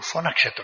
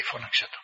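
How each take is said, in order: First: Said in the usual way. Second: Φώναξε το repeated as a soft unvoiced whisper; a softer, whispered φώναξε το. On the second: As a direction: whisper the order a second time. Hermit repeats the order.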